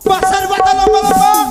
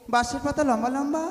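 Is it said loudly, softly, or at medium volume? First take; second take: loudly; medium. First: It is said very loudly. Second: It is said at medium volume.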